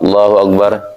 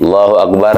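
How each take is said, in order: Both takes have the same delivery.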